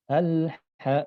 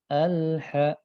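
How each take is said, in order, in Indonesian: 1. L mengalir sebentar langsung ke H. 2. L mengalir sebentar langsung ke H.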